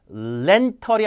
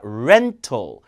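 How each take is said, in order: First: The first sound is an L-like sound. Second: The first sound is an English R sound. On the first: The speaker calls it wrong. "렌털이 아니라" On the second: The speaker calls it right. "R 발음, L 발음 구분"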